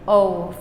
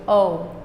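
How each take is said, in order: First: The vowel ends by gliding into a w sound. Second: The vowel ends by gliding into a w sound.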